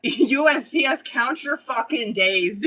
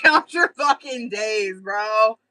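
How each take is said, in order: First: Mock threat through a laugh; drawn-out laughing warning. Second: Slow, louder threat, half joking; punchy mock menace. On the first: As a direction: warn the post office, half laughing. Angry rant at the post office. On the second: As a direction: lean into the warning, louder. Repeats threat at the post office. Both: Real, not acted.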